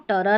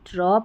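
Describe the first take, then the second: First: A short vowel separates the two consonants. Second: The two consonants are joined with no vowel. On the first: The speaker calls it wrong. "टी आर को टर नहीं" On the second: The speaker calls it right. "ट्र पढ़ना है"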